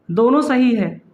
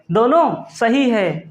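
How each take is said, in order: First: Said in the usual way. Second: "दोनों सही है" said slowly, weight on दोनों; slow emphatic repeat. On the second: Shown as a demonstration. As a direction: drag out "दोनों सही है" so it sinks in.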